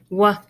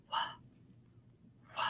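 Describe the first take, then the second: First: Voiced "wah", then a separate puff of h; two separate sounds. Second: "wah" as a tiny voiceless puff; breathless sound. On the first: Teacher showing what you wouldn't say for WH, sounding out. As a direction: split "wah" from a breathy h after it. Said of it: "You wouldn't say wah". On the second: Teacher showing what you would say for WH, breathless sound. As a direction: barely sound "wah", just a short hushed w. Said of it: "It's called a breathless sound". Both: Shown as a demonstration.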